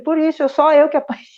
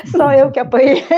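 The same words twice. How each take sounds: First: Said in the usual way. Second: Louder, punching SÓ with a laugh; laughing emphasis. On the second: Retold or imitated. Mother repeating the line to the group, louder, through laughter. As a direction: stress "Só" hard and laugh it out. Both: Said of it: "Eu falei".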